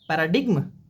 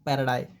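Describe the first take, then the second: First: The g sound is pronounced in the middle. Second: The g sound is left out completely. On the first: The speaker calls it wrong. "पैराडिग्म नहीं" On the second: The speaker calls it right. "जी एम silent है"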